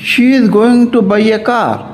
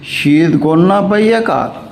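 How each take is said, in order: First: 'Going to' is said as two full words. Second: 'Going to' is reduced to one word, 'gonna'.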